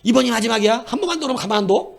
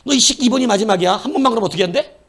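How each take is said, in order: First: Higher, fast stern threat; parent's final warning. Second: Loud, higher, fast furious threat; angrier final warning. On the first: Parent threatening the child, higher fast stern warning. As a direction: warn the child it's the last time. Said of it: "그럼 또 뭐라 그래, 부모는?". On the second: Parent scolding the repeat offender, loud fast furious warning. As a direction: snap at the kid with real heat. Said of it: "근데 또 그래". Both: Retold or imitated.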